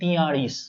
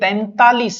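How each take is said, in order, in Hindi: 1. यह 'tiyalis' की तरह बोला जाता है, नासिक्य अक्षर के बिना। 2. यह 'taintalis' की तरह बोला जाता है, पहले अक्षर में नासिक्य ध्वनि के साथ। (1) "तो क्या वजह रही कि आप इसे गलत बोलते हो" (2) "ये तैंतालीस है"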